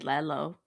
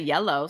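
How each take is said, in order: First: The word starts with an L sound. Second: The word starts with a Y sound. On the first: The speaker calls it wrong. "so I just say Lello" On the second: The speaker calls it right. "I couldn't say yellow"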